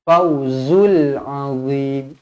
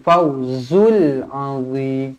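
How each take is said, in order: No difference in how they are said.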